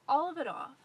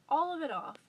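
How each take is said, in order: Both takes have the same delivery.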